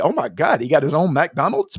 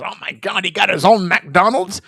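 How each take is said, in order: First: It is said in a delighted, excited tone. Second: It is said in an outraged, upset tone. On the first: This is amazing. The speaker calls it right. "It should be, ... because that's amazing" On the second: This is a scandal. The speaker calls it wrong. "the meltdown is"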